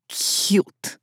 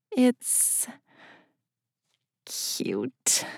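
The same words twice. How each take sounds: First: Cute stretched long, whispered with disgust; drawn-out venomous cute. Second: Breathy half-whispered confession; hesitant hushed admission. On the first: Anatoly repeats her word back as an insult, drawn out. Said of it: "drawing out the word". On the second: Narrator confesses to Anatoly his office is cute, hushed. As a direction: ease the word out, almost unvoiced. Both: A narrator's reading.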